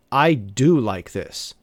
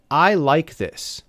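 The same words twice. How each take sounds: First: Slow, deliberate I do like this with weight on do; stress on do. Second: Said in the usual way. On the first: Shown as a demonstration. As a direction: do leaned on to show real liking. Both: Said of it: "We will use the word do for emphasis".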